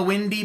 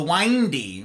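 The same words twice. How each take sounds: First: Said in the usual way. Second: "windy" said with a long i, like "winding"; long-vowel "windy"; other pronunciation. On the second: Shown as a demonstration. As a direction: rhyme the first syllable of "windy" with "wine". Word said again, other vowel.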